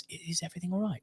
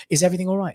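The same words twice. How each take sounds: First: Very soft, discreet check; hushed worried question. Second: Said in the usual way. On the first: Retold or imitated. Dad discreetly asks the medics so his wife won't hear, hushed. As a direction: ask under your breath.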